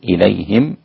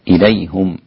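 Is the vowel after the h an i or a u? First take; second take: i; u. First: The h is followed by an i vowel. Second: The h is followed by a u vowel. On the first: "إليهم بكسر الهاء وإسكان الميم" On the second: "ضم الهاء يعقوب التاسع ومعه حمزة، إليهم هكذا"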